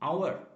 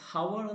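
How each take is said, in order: First: The word starts with a vowel, no h. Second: The word starts with an audible h sound. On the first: The speaker calls it right. "An അവർ എന്നാണ് പറയുക" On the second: The speaker calls it wrong. "ഹവർ എന്നല്ല പറയുന്നത്"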